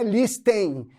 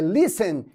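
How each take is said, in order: First: "listen" with the T clearly sounded; the mistaken "listen", lis-TEN with a spoken T; "listen" as a learner says it, T pronounced; wrong pronunciation. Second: "listen" said lissen, no T at all; "listen" the right way, T silent. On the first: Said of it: "a pronúncia não é listen". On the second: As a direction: correct "listen" with the T dropped. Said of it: "ele vai morrer". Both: Shown as a demonstration.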